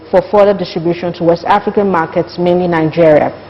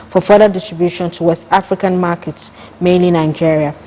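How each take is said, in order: No difference in how they are said.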